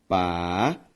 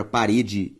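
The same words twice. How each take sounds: First: "parede" split pa... re... de, long pauses; syllable by syllable. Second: Said in the usual way. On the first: Shown as a demonstration. Teacher dividing a word for students, syllable by syllable. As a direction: stretch each syllable of "parede" on its own. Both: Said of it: "ao separar a palavra".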